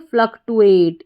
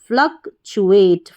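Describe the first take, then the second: First: The middle cluster is said with a plain 't' sound. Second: The middle cluster is said with a 'ch' sound. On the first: The speaker calls it wrong. "अगर आपको सही उच्चारण नहीं पता होगा तो इसको पढ़ देंगे आप फ्लक्टुएट" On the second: The speaker calls it right. "सही प्रोनाउंसिएशन फ्लक्चुएट"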